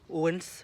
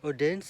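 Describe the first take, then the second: First: The name is pronounced the Danish way. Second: The name is pronounced the non-Danish way. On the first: The speaker calls it right. "dans la langue danoise, ça se dit euh" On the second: The speaker calls it wrong. "Odense ça se dit pas comme ça euh, dans la langue danoise"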